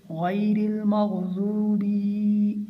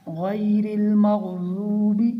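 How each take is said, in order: First: Slow chant, final "bi" of "मग़ज़ूबी" dragged long; overstretched ending. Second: Loud slow chant, final "bi" of "मग़ज़ूबी" kept short; short final vowel. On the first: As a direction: overdo the length on the last vowel of "मग़ज़ूबी". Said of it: "बा को इतना ज़्यादा नहीं खींचना". ("मग़ज़ूबी" की बा को ज़्यादा खींचकर) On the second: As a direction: recite "मग़ज़ूबी" without stretching its last vowel. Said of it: "ऐसे नहीं पढ़ना". ("मग़ज़ूबी" की बा को खींचे बिना) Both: Shown as a demonstration.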